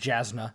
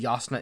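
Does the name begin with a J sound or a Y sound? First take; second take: J sound; Y sound. First: The name begins with a J sound. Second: The name begins with a Y sound. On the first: The speaker calls it wrong. "I would have read it as Jasna" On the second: The speaker calls it right. "I assume Yasna is the correct pronunciation"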